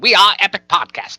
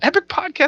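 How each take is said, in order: First: It is said in an old radio announcer voice. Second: It is said in a normal speaking voice.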